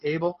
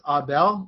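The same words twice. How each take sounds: First: The name is said the English Canadian way. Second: The name is said the French, Montreal way. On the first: "from the English side of Canada, we pronounce it as" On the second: "in Montreal they pronounce it as"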